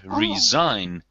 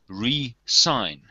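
First: The word is said as one unit, like 'rih-zine'. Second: The prefix is said separately, like 'ree-sign'. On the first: It means to quit a job. "resign means to quit" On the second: It means to sign again. "we pronounce it differently. We say re-sign"

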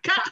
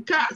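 First: The word starts directly with a plain k. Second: The word starts with an n sound before k. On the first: The speaker calls it right. "c'est ka. Il n'y a pas le N" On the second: The speaker calls it wrong. "Il n'y a pas N devant. Ce n'est pas un ka"

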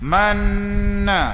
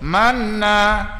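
First: The nasal sound is held for two beats. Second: The nasal sound is held for one beat. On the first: The speaker calls it right. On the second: The speaker calls it wrong.

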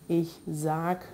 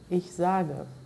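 First: The final e of the verb is dropped. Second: The final e of the verb is pronounced. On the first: This is the casual spoken form. "wo ich das E weglasse" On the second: This is the full written form.

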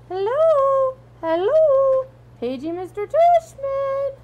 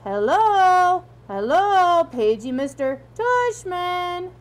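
First: It is said in a high old-lady voice. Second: It is said in a normal voice.

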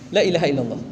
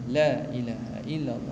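First: It is said fast, the opening vowel short. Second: The opening vowel is drawn out long. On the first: "Laju sangat hilang mak" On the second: "ada mak lah tu"

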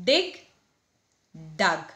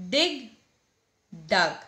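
No difference in how they are said.

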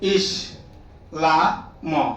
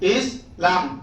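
First: The word is broken into three separate parts. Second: The word is broken into two separate parts.

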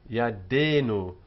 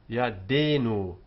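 No difference in how they are said.

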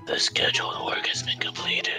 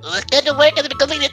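First: It is said in a Batman-like voice. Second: It is said in a Speedy Gonzalez-like voice.

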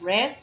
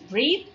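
First: The vowel is short, as in 'red'. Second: The vowel is long, as in 'reed'. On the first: The verb is in the past tense. "en pasado se pronuncia red, como el color rojo" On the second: The verb is in the present tense. "read, presente"

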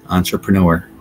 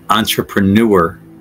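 First: The final syllable sounds like 'ner'. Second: The final syllable sounds like 'newer'. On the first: The speaker calls it right. "It's not newer, it's ner" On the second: The speaker calls it wrong. "The incorrect way is entrepreneur"

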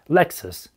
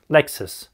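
The two takes are said the same way.

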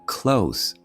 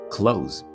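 First: The word ends with a voiceless s sound. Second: The word ends with a voiced z sound. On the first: It means near. "Тут має бути с" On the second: It means to shut something. "з і дифтонг всередині"

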